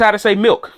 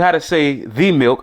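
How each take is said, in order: First: Said in the usual way. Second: "the" said as a full "thee" before milk; stress on THE. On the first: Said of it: "I'm not asking you how to say the milk". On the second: Shown as a demonstration. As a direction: lean on "the" in "the milk", pronounced thee. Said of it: "just how to say milk".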